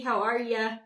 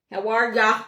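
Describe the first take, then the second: First: Said in the usual way. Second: Louder playful Minnesota accent greeting. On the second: Shown as a demonstration. Greeting viewer Jackie on the stream, playful Minnesota accent. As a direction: stretch it out like a Minnesotan. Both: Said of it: "I sound like I'm from Minnesota".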